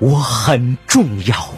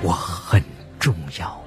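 First: It is said loudly, as a declaration. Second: It is said quietly, softly.

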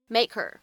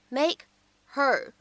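First: The h is dropped and words merge. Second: The h in her is clearly pronounced.

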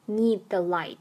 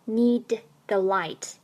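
First: The d at the end of need is unreleased. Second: The d at the end of need is fully released. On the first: The speaker calls it right. "need 爆破音d 失去爆破" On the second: The speaker calls it wrong. "不读作need the light"

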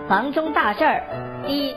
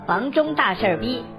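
First: The phrase breaks before 'bi', grouping 'da shir'. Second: The phrase breaks before 'shir', grouping 'shir bi'. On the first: The object is 大事儿 and 逼 is a measure word. The speaker calls it right. "而要念成房中大事儿逼" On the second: The object is 事儿逼. The speaker calls it wrong. "大家千万不要念成房中大事儿逼"

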